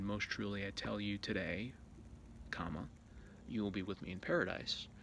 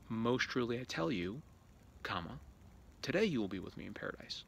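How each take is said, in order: First: The break comes after the word today. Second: The break comes before the word today.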